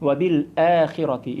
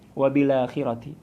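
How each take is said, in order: First: The glottal stop is kept and its vowel lengthened. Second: The glottal stop is dropped, with 'la' linked across. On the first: This is the majority reading. "memanjangkan huruf hamzah yang ada pada al akhirah" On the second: This is the reading of Warsh. "cara membacanya berbeda dengan kita"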